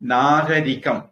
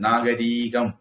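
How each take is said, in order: First: The third syllable has a short vowel. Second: The third syllable has a long vowel. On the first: The speaker calls it right. "ரி குரில்" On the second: The speaker calls it wrong. "நிறைய பேர் அதை நீட்டி எழுதி பழகிட்டாங்க"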